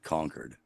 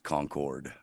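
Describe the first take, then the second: First: The second syllable is reduced, like 'conquered'. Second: The second syllable is a full 'cord'. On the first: The speaker calls it right. "we are the only smart ones who pronounce it Concord" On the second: The speaker calls it wrong. "It's not pronounced Concord"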